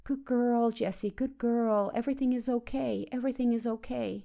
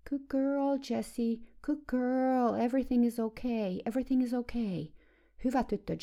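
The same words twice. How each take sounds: First: Imitating the same high, falsely calming coo to a horse. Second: Mother cooing at a nervous horse in a much higher voice; imitating a mother's high, quivering, falsely calming coo; high trembling voice. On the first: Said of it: "koko ajan jatkui tämä puhe". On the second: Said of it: "äiti alkoi puhua hevoselle korkealla, värisevällä äänellä".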